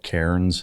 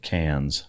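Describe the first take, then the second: First: The name is said the American way. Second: The name is said the Australian way. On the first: This follows the spelling. "it's spelled Cairns" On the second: This is how locals say it. "I know you guys pronounce it Cairns"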